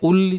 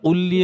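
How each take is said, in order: Both takes have the same delivery.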